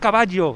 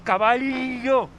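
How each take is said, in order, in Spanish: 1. La doble L suena como una Y. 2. La doble L suena como una L palatal. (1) "no es caballo" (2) "es caballo"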